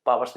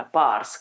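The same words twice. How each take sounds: First: पावर्स said in two syllables, PAA-var-s; पावर्स as spelt, paa-var-s; two-syllable powers. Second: पार्ट्स said as one syllable, paars; पार्ट्स run together into a long-vowel "paars"; one-syllable powers. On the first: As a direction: say पावर्स with a clear v in the middle. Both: Shown as a demonstration. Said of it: "पावर्स नहीं पढ़ना".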